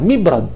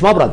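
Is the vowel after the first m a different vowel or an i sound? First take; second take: i sound; different vowel. First: The first m is followed by an i vowel. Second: The first m takes a vowel other than i. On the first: The speaker calls it right. "اوله ميم مكسورة" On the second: The speaker calls it wrong. "مش مبرد"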